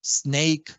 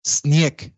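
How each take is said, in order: First: SNAKE with English 'ey' glide; English-style SNAKE, vowel gliding to 'i'; English diphthong. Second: SNIEK with an 'ie' glide; Creole diphthong. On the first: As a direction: say SNAKE as 'sneyk'. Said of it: "cualquier diptongo A en inglés". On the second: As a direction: say SNIEK as 'snyek'. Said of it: "todas esas en criollo sistemáticamente". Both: Shown as a demonstration.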